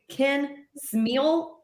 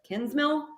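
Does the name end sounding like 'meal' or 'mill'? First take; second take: meal; mill. First: The name ends with a long 'meal' vowel. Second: The name ends with a short 'mill' vowel. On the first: The speaker calls it wrong. "they're going to say Ken Smeal instead of Kinsmill" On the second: The speaker calls it right. "It's literally the easiest name"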